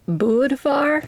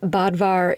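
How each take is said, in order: First: The first vowel follows the original umlaut sound. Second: The first vowel is a plain English-style sound. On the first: This is closer to the name's real pronunciation. "I think his name is pronounced more like Budvar, because it's spelled with an umlaut" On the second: This is easier for an English speaker to say. "for my North American lips, Bodvar is easier and more fun to pronounce"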